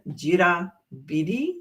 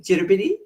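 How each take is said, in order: First: The word is said slowly and carefully. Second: The word is said quickly and naturally.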